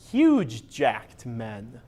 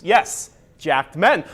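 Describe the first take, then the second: First: Huge stretched very slow and low, rising at the end; stress on huge. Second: Slow, lingering on each word; drawn out. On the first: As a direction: linger on huge, drop the voice lower and slow right down. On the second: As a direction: savor the words slowly. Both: Shown as a demonstration. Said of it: "Or should I say".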